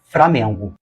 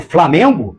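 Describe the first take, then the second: First: The second sound is an R. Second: The second sound is an L.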